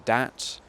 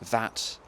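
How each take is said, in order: First: The word begins with a d sound. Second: The word begins with a th sound. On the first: "th stopping would be, you know, that to dat" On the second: "th stopping would be, you know, that to dat"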